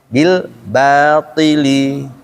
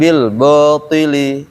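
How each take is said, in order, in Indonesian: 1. Bunyi ba terdengar tipis dan jelas. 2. Bunyi ba terdengar tebal dan tidak sempurna. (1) "Tapi kalau ditarik"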